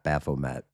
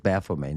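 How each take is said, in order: First: The name is pronounced the English way. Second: The name is pronounced the French way. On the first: The speaker calls it wrong. "not Baphomet" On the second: The speaker calls it right. "it is Baphomet ... Baphomet being French"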